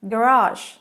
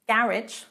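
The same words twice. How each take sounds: First: It is pronounced the American way. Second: It is pronounced the British way. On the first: "garage in American" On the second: "garage in British"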